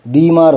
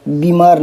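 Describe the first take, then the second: First: बीमार with a long bee; correct long vowel. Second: बीमार with a short bi; mock error, brief i in बीमार; wrong short vowel. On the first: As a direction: stretch the first vowel of बीमार. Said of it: "बी बड़ी आता है". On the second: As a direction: cut the first vowel of बीमार short, "bi-maar". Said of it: "बीमार नहीं होता". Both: Shown as a demonstration.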